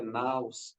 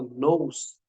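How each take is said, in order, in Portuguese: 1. A vogal soa como 'ow', como em 'house'. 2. A vogal soa como 'oo', como em 'noose'. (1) "a pronúncia correta é naus" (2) "quando ele fala nous"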